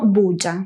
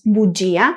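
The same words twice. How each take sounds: First: The ending gia is merged into a single syllable. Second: The stressed i splits the ending into two syllables. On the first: The speaker calls it wrong. "y no bugia" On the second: The speaker calls it right. "La sílaba tónica cae en la I del grupo ya, por eso pronunciamos bugia"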